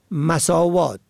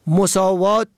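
First: مساوات as "masāwāt"; fatha on first letter. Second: مساوات as "mosāwāt"; rounded "o" after the m in مساوات; damma on first letter. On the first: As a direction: open "a" after the m in مساوات. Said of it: "به فتح اول". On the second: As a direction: say مساوات as mo-sā-wāt. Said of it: "به ضم اول". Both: Shown as a demonstration.

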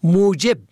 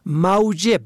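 First: موجب as "mujeb"; pure "u" after the m in موجب; damma on first letter. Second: موجب as "mawjeb"; "aw" diphthong in موجب; fatha on first letter. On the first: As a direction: say موجب as MU-jeb. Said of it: "به ضم اول". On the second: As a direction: say موجب as MAW-jeb. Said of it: "به فتح اول". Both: Shown as a demonstration.

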